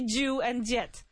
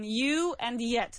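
First: The words begin with j sounds. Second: The words begin with y sounds. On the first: The speaker calls it wrong. "Don't say you and yet" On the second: The speaker calls it right. "So please focus on you and yet"

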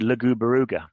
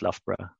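First: Every letter is sounded, giving five syllables. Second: It is said shortly with three syllables. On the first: The speaker calls it wrong. "might look at Loughborough and say Lugubaruga" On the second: The speaker calls it right. "but it's pronounced Loughborough"

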